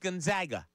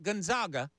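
First: The middle syllable sounds like 'zag'. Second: The middle syllable does not sound like 'zag'. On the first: The speaker calls it right. "It is Gonzaga. They are the Zags" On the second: The speaker calls it wrong. "It's not Gonzaga"

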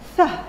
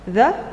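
First: The th sound is voiceless, only air. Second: The th sound is voiced, with buzzing. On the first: "or voiceless" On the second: "As voiced"

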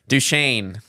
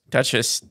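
First: It is said with a final shane sound. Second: It is said like the word duchess. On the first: The speaker calls it right. "Yeah, Duchesne County" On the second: The speaker calls it wrong. "the one you've been calling it Dutchess County"

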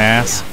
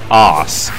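First: The word is said the American way. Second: The word is said the British way. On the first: The speaker calls it wrong. "You can tell I watch too much American TV" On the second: The speaker calls it right. "the correct pronunciation of that word is, of course, arse"

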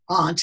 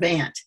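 First: It is said the New England way, like ahnt. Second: It is said the Midwestern way, like ant.

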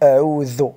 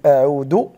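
First: The final consonant sounds like th in this. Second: The final consonant sounds like d. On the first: The speaker calls it right. "يجب أن نقول أعوذ" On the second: The speaker calls it wrong. "إذا قلت أعود فأنت تعرفين أنه خطأ"

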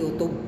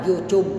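First: The second syllable has a short 'uh' vowel. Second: The second syllable has a long 'oo' vowel. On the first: The speaker calls it wrong. "hindi YouTube" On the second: The speaker calls it right. "Kaya salita ako dyan, YouTube"

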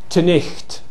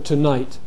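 First: The middle has a throaty ch sound. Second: The middle has no throaty ch sound. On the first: It is the old Scottish dialect form. "in some parts of Scotland, people might still say" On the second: It is the standard modern form. "instead of"

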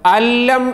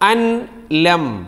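First: The n merges fully into a doubled l. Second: The n is pronounced separately before the l. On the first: The speaker calls it right. "അല്ലം എന്ന് വായിക്കണം. പിന്നെ ആ നൂനിൻ്റെ സ്വരം ശബ്ദം തീരെ ഉണ്ടാവില്ല" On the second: The speaker calls it wrong. "അൻ ലം ആണ് എഴുതിയതെങ്കിലും"

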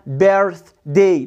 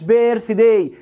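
First: The first vowel is an er sound with r. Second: The first vowel is a long ee sound. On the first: The speaker calls it right. "اسمها بيرث داي" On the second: The speaker calls it wrong. "ما اسمهاش بيرث داي"

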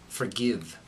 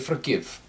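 First: American accent with a clear short i vowel. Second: Scandinavian accent with a darkened short i vowel. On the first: "in the American accent, this will be very clear" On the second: "when speaking with Swedish or Norwegian accent, we're going to say"

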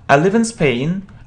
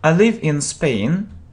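First: The sentence is said at a faster pace. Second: The sentence is said at a slower pace.

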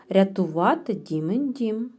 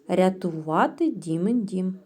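No difference in how they are said.

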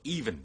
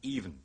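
First: The second syllable has a full vowel. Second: The second syllable is reduced to a nasal. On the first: "even 讀even" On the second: "將第二個音節縮成一個鼻音"

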